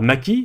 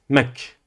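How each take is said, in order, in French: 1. Le k est suivi de la voyelle i. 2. Le k n'est suivi d'aucune voyelle. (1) "vous ne dites pas maki" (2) "Vous dites mak. Pas de voyelle"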